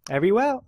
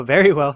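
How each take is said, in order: First: "Every well" said as every with an initial e; "Every well" misreading, every not very. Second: "very well" said with plain v, very; "very well" corrected to very. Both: Shown as a demonstration. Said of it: "not every well".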